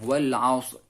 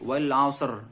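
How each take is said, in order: First: The final r is barely audible, very faint. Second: The final r is clearly and fully pronounced. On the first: The speaker calls it right. "cukup kita sendiri yang eh, mendengarnya" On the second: The speaker calls it wrong. "tidak seperti itu"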